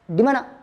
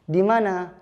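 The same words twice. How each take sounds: First: The vowels are clipped unnaturally short. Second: The vowels have their normal, natural length. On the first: It is put on and not natural. The speaker calls it wrong. "itu qasr namanya, pendek" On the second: It is said without any special cause. The speaker calls it right. "itu sudah asli, natural"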